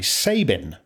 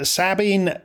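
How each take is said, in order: First: The name is said with an Anglo-Irish ending. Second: The name is said with a French-style ending.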